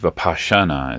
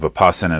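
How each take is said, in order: First: The word is said in its Sanskrit form. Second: The word is said in its Pali form. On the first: "is how we pronounce it in Sanskrit" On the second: "is how we pronounce it in uh, Pali"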